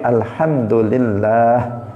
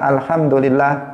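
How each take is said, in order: First: The middle la sound is drawn out long. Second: The middle la sound is short. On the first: The speaker calls it right. "Allah itu bagian tengahnya itu panjang" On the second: The speaker calls it wrong. "bukan alhamdulillah"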